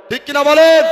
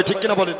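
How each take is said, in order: First: Raised, much louder call for a response; loud crowd prompt. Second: Said in the usual way. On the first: Real, not acted. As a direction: throw the question out hard to the crowd. Repeats, demanding the crowd answer. (জোরে হাঁক দিয়ে শ্রোতাদের সাড়া চাওয়া)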